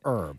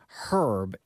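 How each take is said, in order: First: The word begins without an H sound. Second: The word begins with an audible H sound. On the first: "it's a silent H" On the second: "do you pronounce the H in herb? I do"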